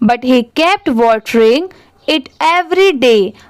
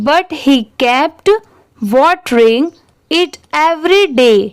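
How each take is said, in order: First: It is read at a fast, fluent pace. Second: It is read at a slow, careful pace.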